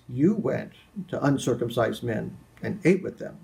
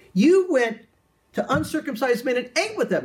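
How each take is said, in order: First: It is said in an accusing, disapproving tone. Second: It is said in a cheerful, happy tone.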